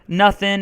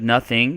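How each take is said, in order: First: The final G sound is dropped. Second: The final G sound is pronounced. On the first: It is informal. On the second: It is more formal.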